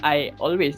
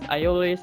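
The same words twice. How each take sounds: First: The words are said without an added Y sound. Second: The words are linked with an added Y sound. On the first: "we don't say" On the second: "when we speak quickly"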